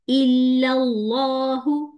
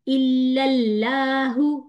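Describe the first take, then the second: First: The L in 'lahu' sounds thick and heavy. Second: The L in 'lahu' sounds thin and light. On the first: The speaker calls it right. "ये पढ़ना है हमने" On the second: The speaker calls it wrong. "ये नहीं पढ़ना"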